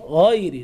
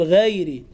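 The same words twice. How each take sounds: First: "غير" with dark gh and backed vowel; heavy ghayn. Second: "غير" with light gh, fronted vowel; thinned ghayn. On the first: Teacher gives correct form, heavy gh in "غير". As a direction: give "غير" a full, thick opening. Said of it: "حرف الغين هكذا في القرآن". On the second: Teacher shows the error, thin gh in "غير". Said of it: "لا تقل". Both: Shown as a demonstration.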